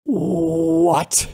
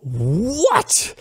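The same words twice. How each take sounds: First: Drawn-out, higher "What?" of disbelief; shocked disbelief. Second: Long "What?" swooping up high; incredulous outrage. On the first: Reacting to PayPal ruling against him, shocked disbelief. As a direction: stretch one stunned "what", pitched up. Reacts to email denying his case. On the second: Questioning PayPal's decision a second time, incredulous outrage. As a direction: repeat it higher, rising in sheer disbelief. Repeats his reaction to the denial. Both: Acted.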